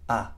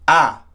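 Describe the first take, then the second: First: It is said in a gentle voice. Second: It is said in an authoritative voice.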